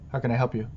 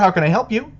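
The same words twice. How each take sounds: First: It is said in a flat, uninterested tone. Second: It is said in a lively, enthusiastic tone.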